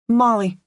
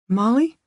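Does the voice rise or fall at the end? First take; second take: fall; rise. First: It is said firmly, falling at the end. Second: It is said like a question, rising.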